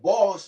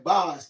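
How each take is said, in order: First: The vowel is a rounded standard English 'o'. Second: The vowel is an open Jamaican 'a'-like sound. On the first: "instead of say boss, B O S S" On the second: "they say boss, B A S S"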